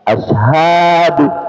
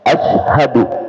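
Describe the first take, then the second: First: A vowel in the word is drawn out long. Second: The vowels in the word are kept short. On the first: The speaker calls it wrong. "tidak jarang kita mendengarkan muadzin mengucapkan asyhadu" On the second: The speaker calls it right. "padahal yang benar asyhadu ... tidak panjang"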